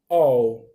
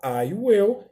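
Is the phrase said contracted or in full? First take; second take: contracted; full. First: One short syllable is said, I and will merged. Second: Two full words are said, with a clear will. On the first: "mas também eu posso falar all" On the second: "Eu posso falar I will"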